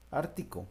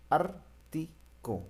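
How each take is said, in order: First: Said in the usual way. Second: Slow, drawn-out ártico. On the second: Shown as a demonstration. Teacher to class, slowly spelling out ártico. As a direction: stretch ártico out slowly, holding each syllable of ártico. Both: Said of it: "está antes la A".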